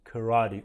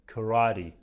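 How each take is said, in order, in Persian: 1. با صداهای انگلیسی آمریکایی تلفظ میشه. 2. با صداهای انگلیسی آمریکایی تلفظ میشه.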